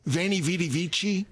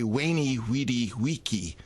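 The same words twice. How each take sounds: First: The words begin with a V sound. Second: The words begin with a W sound.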